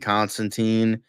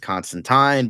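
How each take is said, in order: First: The name is said the American way. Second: The name is said the non-American way. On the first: This is the film's American version of the character. "I'm calling it Constantine ... Americans pronounce it Constantine" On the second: This is how the original character's name is said. "the correct pronunciation is Constantine"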